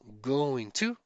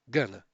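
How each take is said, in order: First: Both words are said fully and separately. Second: The words are reduced into one short word.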